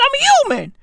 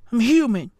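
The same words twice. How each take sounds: First: Much higher, squeaky take of the line; squeaky comic version; mock high whine. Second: Said in the usual way. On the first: Shown as a demonstration. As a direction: squeak it up like a joke.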